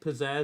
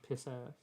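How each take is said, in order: First: It is said as ordinary 'pizzazz'. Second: It is said to sound like 'piss ass'.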